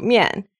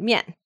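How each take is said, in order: First: Pleased mian, still falling in tone; good mood. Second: Mock-annoyed mian, falling sharply; kinda angry. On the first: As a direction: say mian cheerfully but keep the fall. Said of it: "pretty good mood about mian". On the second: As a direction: snap out mian as if displeased. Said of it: "sounds kinda angry". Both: Shown as a demonstration.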